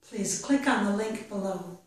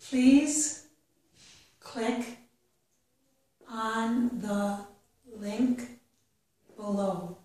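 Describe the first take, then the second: First: The sentence is read at a faster pace. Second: The sentence is read at a slow pace. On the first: "and then a little bit faster" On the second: "I will read each sentence slowly"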